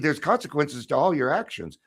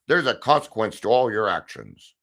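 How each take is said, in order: First: The voice is light, upbeat and cheerful. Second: The voice is low, booming and ominous. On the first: Consequences can be good things. "Now they sound good, right?" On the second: Consequences are a threat of punishment. "when we lower our voice and and boom it"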